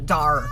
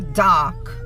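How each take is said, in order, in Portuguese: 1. É pronunciado com sotaque americano. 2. É pronunciado com sotaque britânico. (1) "o americano ele vai falar dark" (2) "O britânico, ele fala dark"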